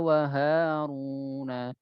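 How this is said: The word has a slight nasal sound. The speaker calls it wrong. "masih ada sedikit ada hidung ya"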